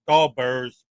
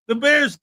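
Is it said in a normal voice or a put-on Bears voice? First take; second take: Bears voice; normal. First: It is said in a put-on Bears voice. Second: It is said in his normal voice.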